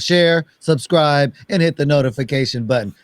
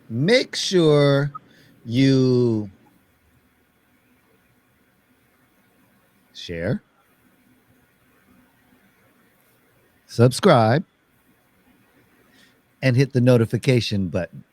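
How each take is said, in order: First: It is said at a faster pace. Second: It is said at a slower pace.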